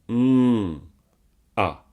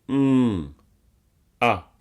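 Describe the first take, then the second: The two takes are said the same way.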